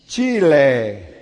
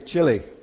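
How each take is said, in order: First: The name is said the local way. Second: The name is said the English way. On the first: The speaker calls it right. "Chi. Le" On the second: The speaker calls it wrong. "But I didn't say it right there"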